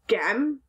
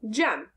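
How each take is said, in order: First: The word begins with a hard G sound. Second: The word begins with a J sound. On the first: The speaker calls it wrong. "that doesn't sound right" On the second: The speaker calls it right. "Try J instead"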